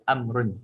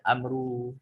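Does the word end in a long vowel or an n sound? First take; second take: n sound; long vowel. First: The word ends with a short u and n. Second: The word ends in a long u vowel. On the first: The speaker calls it right. "Dia baca amrun" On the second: The speaker calls it wrong. "Tak baca amru, tak"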